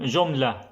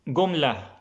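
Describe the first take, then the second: First: The word starts with a j sound. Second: The word starts with a hard g sound. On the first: "this was the classic way" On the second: "I'll say it in the Egyptian way"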